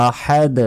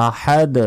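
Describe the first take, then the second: Both takes have the same delivery.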